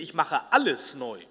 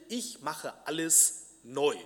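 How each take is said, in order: First: The word alles carries the main stress. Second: The word neu carries the main stress. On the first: The renewal will include everything. "Man könnte auch betonen" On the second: Everything will become new. "Das Neuwerden"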